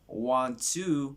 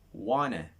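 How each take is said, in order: First: Each word is said fully and separately. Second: The words are run together into a contraction.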